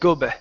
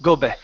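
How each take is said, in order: The two takes are said the same way.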